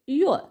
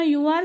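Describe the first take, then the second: First: The words merge with a slight final r. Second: Two separate full words are said.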